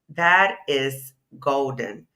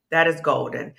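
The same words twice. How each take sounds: First: That is golden, drawn out slowly; slow admiring emphasis; slow emphatic praise. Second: Said in the usual way. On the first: Shown as a demonstration. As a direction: savour every word of That is golden.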